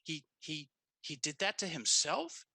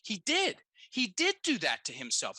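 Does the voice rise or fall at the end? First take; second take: rise; fall. First: The voice rises at the end like a question. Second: The voice falls at the end like a statement.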